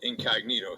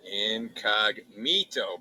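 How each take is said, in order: First: Said in the usual way. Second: Drawn out. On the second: Shown as a demonstration. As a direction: stretch incognito out very slowly, syllable by syllable. Reading brand name off package.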